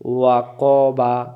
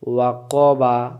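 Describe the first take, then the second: Both takes have the same delivery.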